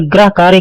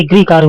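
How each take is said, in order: First: गृह said as "grah"; wrong गृह. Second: गृह said as "grih"; correct गृह. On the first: Teacher showing the error, "grah" for गृह. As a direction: use an a after gr in गृह. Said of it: "गलत है". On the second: Teacher correcting, "grih" in गृह. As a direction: use an i after gr in गृह. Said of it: "ये गृह कार्य होता है". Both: Shown as a demonstration.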